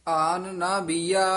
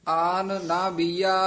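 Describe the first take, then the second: No difference in how they are said.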